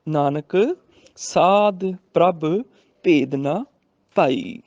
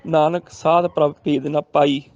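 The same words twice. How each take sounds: First: Slow spaced verse ending on ਭਾਈ with bh; pause after Nanak. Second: Verse run together, ending on ਪਾਈ with a p; mistaken ਪਾਈ. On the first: Shown as a demonstration. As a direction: stop on Nanak, then draw each phrase out to ਭਾਈ. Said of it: "Nanak ਤੇ ਵੀ ਰੁਕਣਾ ਹੈ". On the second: Retold or imitated. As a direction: imitate the misreading, no pause after Nanak, ਪਾਈ for ਭਾਈ. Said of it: "ਕੁਝ ਸੱਜਣੇ ਤਾਂ ਪਾਈ ਉਚਾਰਨ".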